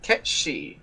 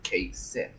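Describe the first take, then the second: First: The name is said as two syllables, 'Ket-shee'. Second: The name is said as 'Kate Sith' with a th. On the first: The speaker calls it right. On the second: The speaker calls it wrong.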